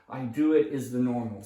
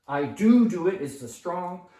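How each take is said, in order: First: Said in the usual way. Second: Teacher stressing the extra "do"; strong emphasis. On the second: Shown as a demonstration. ESL teacher showing the emphatic form, "do" punched loud. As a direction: DO stressed, louder and higher.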